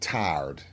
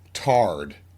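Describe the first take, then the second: First: The vowel is a full standard 'tie' glide. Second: The vowel is flattened, sounding like 'tar'. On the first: "Tarred meant tired" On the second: "she would say, I'm tarred"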